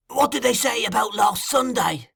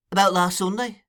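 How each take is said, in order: First: High, insistent question. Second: Raised, puzzled echo; considering. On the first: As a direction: press hard in a high voice. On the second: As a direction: repeat it questioningly, thinking back. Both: A narrator's reading.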